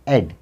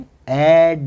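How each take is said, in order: First: The final d sound is kept short. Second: The final d sound is held long. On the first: The speaker calls it right. "आखिरी डी की आवाज उसको छोटी रखनी है" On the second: The speaker calls it wrong. "लेकिन इस तरह से नहीं पढ़ना है"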